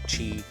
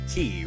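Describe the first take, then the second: First: The name is said with a ch sound. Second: The name is said like the word key. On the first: The speaker calls it wrong. "Like not chi" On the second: The speaker calls it right. "It's definitely key"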